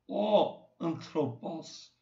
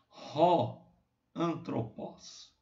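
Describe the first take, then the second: First: The phrase starts with a vowel, no h sound. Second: The phrase starts with a breathy h sound. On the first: The speaker calls it wrong. "não é o antropos" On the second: The speaker calls it right. "ele é pronunciado como o H de house"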